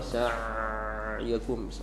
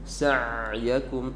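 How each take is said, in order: First: The middle throat sound is held too long. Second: The middle throat sound is held medium length. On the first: The speaker calls it wrong. "terlalu lama sa'yakum, terlalu lama tidak boleh" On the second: The speaker calls it right. "Jadi pertengahan sa'yakum"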